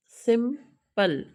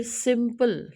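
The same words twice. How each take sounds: First: simple slowly split into सिम and पल; two separate beats for simple, pausing before पल; syllable by syllable. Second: Said in the usual way. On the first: Shown as a demonstration. Teacher shows students the same case, simple broken into two syllables. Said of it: "same case है". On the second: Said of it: "फिर simple".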